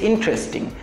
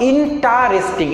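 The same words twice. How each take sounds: First: The word is said with only three syllables. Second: The word is said with four full syllables. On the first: The speaker calls it right. "It's ইন্টারেস্টিং" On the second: The speaker calls it wrong. "Not ইন্টারেস্টিং"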